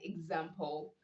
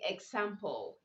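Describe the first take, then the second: First: The x is sounded with a z sound. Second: The x is sounded without a z sound. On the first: The speaker calls it right. "you say example" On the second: The speaker calls it wrong. "You don't say example"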